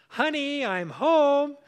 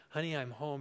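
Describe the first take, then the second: First: Loud, high call up the stairs; calling upstairs. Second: Said in the usual way. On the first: Retold or imitated. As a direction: call out so she hears you coming. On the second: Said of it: "I said".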